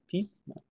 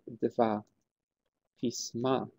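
First: The stress is on the first syllable of pisma. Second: The stress is on the last syllable of pisma. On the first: It is the plural form. "i plural heter pisma" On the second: It is the form used after two, three and four. "efter 2, 3 och 4 så får man samma betoning som i singular"

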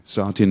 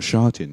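First: The word begins with an 's' sound. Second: The word begins with an 'sh' sound. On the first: The speaker calls it right. "Satin, not Shatin" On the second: The speaker calls it wrong. "not Shatin"

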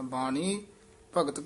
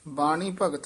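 First: The word ਬਾਣੀ is given added emphasis. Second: The word ਬਾਣੀ is said plainly without emphasis. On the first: The speaker calls it right. "ਬਾਣੀ ਪਦ ਤੇ ਵੀ ਯਮਕ ਲਾ ਕੇ ਉਚਾਰਨ ਕਰਨਾ ਹੈ" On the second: The speaker calls it wrong. "ਨਹੀਂ ਕਹਿਣਾ"

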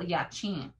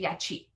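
First: The final vowel is nasalized. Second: The final vowel is plain, not nasalized. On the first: The speaker calls it right. "It's a nasal" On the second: The speaker calls it wrong. "they say yachi. Yachi is a different word. That's not the word"

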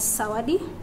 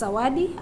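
First: The word begins with a hissing voiceless s sound. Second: The word begins with a buzzing voiced z sound. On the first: "zawadi as sawadi" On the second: "devoicing of z to sa"

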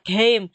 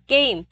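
First: The word starts on a plain, lower pitch. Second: The word starts on a raised, higher pitch. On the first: The speaker calls it wrong. "Bình thường thì đáng lẽ là mình đọc là game vì là chữ cờ" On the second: The speaker calls it right. "lên giọng là game"

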